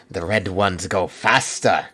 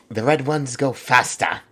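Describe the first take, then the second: First: Slow attempt at a Cockney orc line; a failed try at orc Cockney, slow; failed Cockney accent. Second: Slow, higher second attempt at Cockney; Cockney accent retry. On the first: Quoting orc lore in a failed Cockney accent. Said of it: "That was not a Cockney accent". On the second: Retrying the orc line in a Cockney accent. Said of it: "I can't do a Cockney accent".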